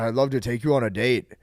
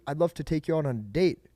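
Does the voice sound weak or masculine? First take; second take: masculine; weak. First: It is said in a deep, masculine tone. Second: It is said in a weak, unmasculine tone.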